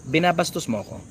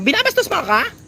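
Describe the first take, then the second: First: The phrase is said in a low, falling pitch. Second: The phrase is said in a high pitch. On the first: The speaker calls it right. "Baba mo lang" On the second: The speaker calls it wrong. "you will sound hysterical kapag ka mataas ito"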